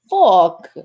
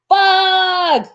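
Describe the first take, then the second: First: It is said in a put-on English accent. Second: It is shouted in the speaker's usual accent. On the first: "they probably said it more with an accent" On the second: "just to scream it out"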